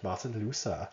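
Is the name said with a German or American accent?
American. It is said in the speaker's normal accent.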